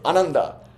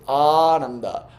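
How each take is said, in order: First: The first vowel is short and quick. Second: The first vowel is drawn out long. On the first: The speaker calls it wrong. "You don't say Ananda" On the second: The speaker calls it right. "that lengthening of the A is psychologically important"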